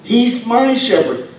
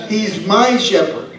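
First: "my" lifted high and drawn out slowly; slow, higher stress on my. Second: "my" lightly stressed at an even pace. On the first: Preacher urging the congregation, slow and high on "my". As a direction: lift "my" and slow the whole line right down. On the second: Preacher repeating the verse, "my" lightly stressed. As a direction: let "my" stand out a little. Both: Shown as a demonstration. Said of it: "Think about that for a moment".

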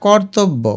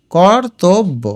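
First: Said in the usual way. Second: কর্তব্য as kor, tob, bo; syllable by syllable. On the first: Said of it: "এটা কর্তব্য". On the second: Shown as a demonstration. Teacher repeats it for spelling, কর্তব্য split into syllables. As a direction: separate the three beats of কর্তব্য. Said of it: "ভেঙে ভেঙে লিখবে".

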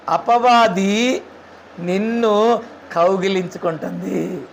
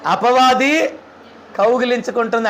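First: Drawn out very slowly, hushed at the end; slow dramatic warning. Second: Said in the usual way. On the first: Shown as a demonstration. Preacher warning the congregation about the devil, slow and drawn out. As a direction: stretch each word out, let it sink in.

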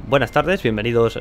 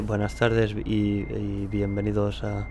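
First: Lifted, lilting "buenas tardes, bienvenidos", rising on "tardes"; "buenas tardes, bienvenidos" bright-tuned and confident, like a video intro; lively presenter intonation. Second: Hesitant, unprojected "buenas tardes y, y bienvenidos a", trailing away; poor, untrained intonation. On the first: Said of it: "sobre todo es la entonación". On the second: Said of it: "No decir". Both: Shown as a demonstration.

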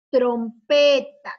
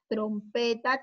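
First: Slow, loud TROMPETA; drawn-out model word. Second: Said in the usual way. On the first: Shown as a demonstration. Teacher presenting a word with tro to pupils, slow and loud. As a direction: announce "Trompeta" loudly, stretching its syllables.

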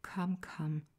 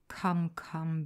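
First: Kindly. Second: Louder, pressing "Come, come"; firm. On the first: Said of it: "said Holmes kindly". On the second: Holmes pressing Bannister to admit the truth, firm. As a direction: urge him firmly with a louder "Come, come". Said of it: "Holmes pressing the servant". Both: A narrator's reading.

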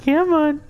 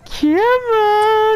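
First: Said in the usual way. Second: Yelled, higher pitched come on; shouted taunt. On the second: Real, not acted. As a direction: bellow it at the enemy. Urging enemies into the trap.

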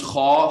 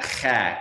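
First: Kha with a dark aw vowel, like khaw; heavy kha. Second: Kha with a clear, bright a vowel; light kha. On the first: Teacher showing the heavy kha with the aw sound. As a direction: round kha toward aw. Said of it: "fused with that aw sound". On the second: Teacher showing the wrong, light kha. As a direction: say kha with a plain open a. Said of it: "it's not kha". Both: Shown as a demonstration.

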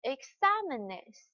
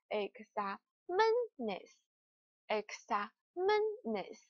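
First: "examenes" with the stress on "xa"; "e-XA-me-nes", keeping the singular's stress; correct original stress. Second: "examenes" slowly broken up, stress moved onto "men"; slow "exa-MEN-es", showing the misplaced stress; wrong shifted stress. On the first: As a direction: hit "XA" in "examenes", letting "menes" fall away. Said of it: "告诉大家重读的地方在这里". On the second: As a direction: punch "MEN" in "examenes", syllable by syllable. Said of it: "重读的位置就不在这里了". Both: Shown as a demonstration.

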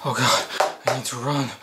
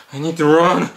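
First: Soft panicked murmur; frightened hush. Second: Normal-level rushed panic; panicked urgency. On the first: Hiding victim murmuring softly in fear. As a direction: hush it so he won't hear. Terrified whispering while hiding. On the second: Hiding victim blurting his panic aloud. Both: Acted.

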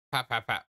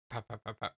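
First: Said in the usual way. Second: Quiet murmured pat pat pat; softly pat the words out. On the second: Pretend. Voicing the patting sound.

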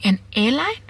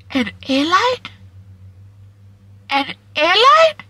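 First: Said in the usual way. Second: Slow, much higher, louder disbelief; disbelieving cry. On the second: Real, not acted. To viewers, marvelling that an airline called, in stunned high disbelief. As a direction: stretch it up in amazement.

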